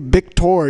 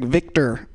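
First: The first sound is a soft, Spanish-style V. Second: The first sound is a hard, English-style V. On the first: This is the usual way Mexicans say the name. "Mexicans say Victor usually" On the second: This is the odd way others said the name to him. "Victor with like a hard V"

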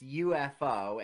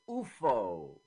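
First: It is pronounced with English letter names. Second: It is pronounced with Swedish letter names. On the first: "In English, it's UFO" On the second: "and in Swedish, it's UFO"

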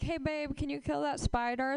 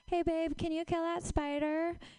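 First: It is said in her normal voice. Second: It is said in a high-pitched voice.

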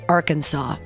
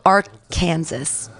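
First: The word ends with a 'saw' sound. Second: The word ends like 'Kansas', as spelled. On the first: "when did we decide to pronounce it Arkansas?" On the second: "it's spelled Arkansas"

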